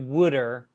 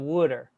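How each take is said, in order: First: It is exaggerated, split into would and er. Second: It is said smoothly as one word.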